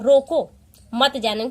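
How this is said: There is a pause after 'roko'.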